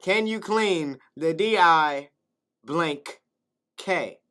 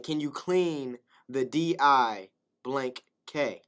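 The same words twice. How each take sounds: First: Slower, emphatic repeat with pauses; slow spelled repeat. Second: Slow spelling. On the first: Repeating the kid's mistaken request, drawn out slowly. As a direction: lean on each letter. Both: Shown as a demonstration. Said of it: "I'ma repeat it again".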